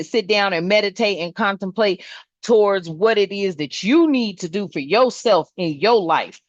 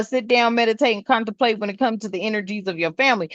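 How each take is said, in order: First: Said in the usual way. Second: Fast throwaway meditate and contemplate; rattled off quickly; rushed mock version. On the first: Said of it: "I'm saying". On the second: Shown as a demonstration. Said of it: "I'm saying mid".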